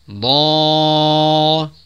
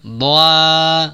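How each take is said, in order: First: The long vowel sounds heavy and dark. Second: The long vowel sounds light and thin. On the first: The speaker calls it right. "mat alifnya dibaca tebal" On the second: The speaker calls it wrong. "Jangan doa"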